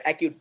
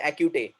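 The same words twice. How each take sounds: First: Said in the usual way. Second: "acute" with an added "ay", "acu-tay"; wrong final E. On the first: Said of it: "we don't say acute". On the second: Shown as a demonstration. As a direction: sound the silent E at the end of "acute". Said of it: "Do we, we don't say".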